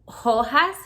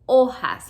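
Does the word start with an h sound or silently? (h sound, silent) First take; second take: h sound; silent. First: The word begins with an audible h sound. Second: The word begins directly with the vowel sound. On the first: The speaker calls it wrong. "You don't say hojas" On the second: The speaker calls it right. "you say hojas, like the H is not there"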